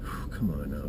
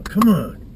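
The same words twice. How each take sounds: First: Breathy whisper to psych himself up; whispered pep talk. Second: Loud, high come on to fire himself up; pumped-up shout. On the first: Hunter whispering to himself before the hunt, hushed. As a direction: whisper a quiet come on to himself. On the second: Hunter psyching himself up alone in the woods, loud shout. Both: Real, not acted. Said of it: "Trying to get pumped up here".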